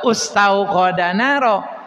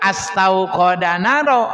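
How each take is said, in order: First: The word begins with a u vowel. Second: The word begins with an a vowel. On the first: "atau ustauqadanaro" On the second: "bukan astauqadanaro"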